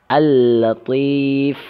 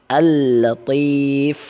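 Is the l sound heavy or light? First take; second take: light; light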